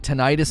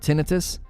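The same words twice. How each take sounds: First: It is said the American way. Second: It is said the British way. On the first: "it's a U S thing to say tinnitus" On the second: "instead of tinnitus"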